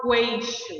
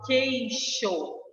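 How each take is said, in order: First: "queixo" starting with a KW sound; wrong pronunciation. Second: "queixo" slowly, starting with a plain K, "keisho"; correct silent U. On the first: Teacher showing students what isn't said, "queixo" as "kweixo". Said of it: "Eu não falo queixo". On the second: Teacher showing students the digraph, "queixo" said slowly as "keisho". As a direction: draw out "queixo" with no U sound. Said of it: "eu falo queixo". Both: Shown as a demonstration.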